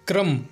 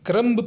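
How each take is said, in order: First: The final b sound is silent. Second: The final b sound is pronounced. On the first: The speaker calls it right. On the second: The speaker calls it wrong.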